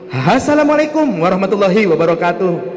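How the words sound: It imitates a dangdut MC's greeting.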